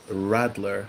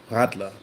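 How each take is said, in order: First: RADLER with an English R at the front of the mouth; English-style R at both ends of RADLER. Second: RADLER with R from the back of the throat; guttural R at the start of RADLER; German R. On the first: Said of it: "with an R like that". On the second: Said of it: "force the sound to come from the back". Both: Shown as a demonstration.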